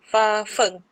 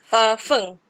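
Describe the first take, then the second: No difference in how they are said.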